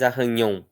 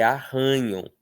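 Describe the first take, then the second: First: Arranhão with the last syllable strong; stress on ÃO. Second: Arranham with RAN strong and nham weak; stress on RAN. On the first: Teacher showing the word it no longer is, final stress. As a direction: put the weight at the end of arranhão. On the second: Teacher showing the changed word, stress on RAN. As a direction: slowly lean on ran in arranham. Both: Shown as a demonstration. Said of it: "a força já não está na última mais".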